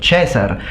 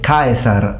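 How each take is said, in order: First: It is said with the ecclesiastical Latin pronunciation. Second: It is said with the classical Latin pronunciation.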